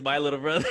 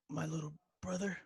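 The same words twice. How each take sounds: First: Just say the line plainly; plain line reading. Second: Quiet, hesitant line reading; a weak, halting movie line; bad acting. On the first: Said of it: "all you have to say is". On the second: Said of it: "excuse my acting 'cause it's horrible". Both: Shown as a demonstration.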